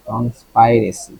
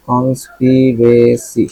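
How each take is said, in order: First: কনস্পাইরেসি with "spai", rhyming with "spy"; long i variant. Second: কনস্পিরেসি with "spi", not "spai"; short i variant. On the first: Teacher weighing two pronunciations, কনস্পাইরেসি said with "spai". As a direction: say কনস্পাইরেসি with an "eye" vowel. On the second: Teacher weighing two pronunciations, কনস্পিরেসি drawn out with "spi". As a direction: slowly sound out কনস্পিরেসি with a short "pi". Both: Shown as a demonstration. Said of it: "কনস্পাইরেসি না কনস্পিরেসি?".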